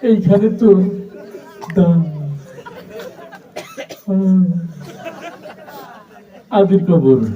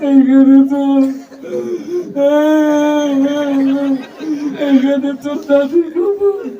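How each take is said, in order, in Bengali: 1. লাইনটি তোতলিয়ে আবৃত্তি করা হচ্ছে। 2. লাইনটি কান্না-ভরা গলায় আবৃত্তি করা হচ্ছে। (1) "একটা তোতলা ছেলে আসছে" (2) "ও আগেই কান্দা শুরু করে দিছে"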